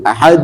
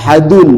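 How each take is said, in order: First: The word ends abruptly on the final d. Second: The word ends with an added 'un' syllable. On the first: The speaker calls it right. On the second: The speaker calls it wrong.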